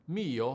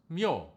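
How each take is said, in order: First: It is said as two syllables, i then o. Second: It is said as one syllable, with a glide.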